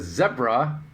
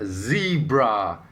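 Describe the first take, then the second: First: It is said the non-American way. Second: It is said the American way. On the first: The speaker calls it right. "the correct way of saying the word" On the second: The speaker calls it wrong. "as Canadians and Americans think is the proper way"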